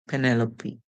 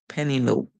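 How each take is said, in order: First: It ends with a pronounced E sound. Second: It ends in a long O with silent E. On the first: "the O would say O, the P would say, and the E would say E" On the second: "the O would make the long O sound, and the E would stay silent"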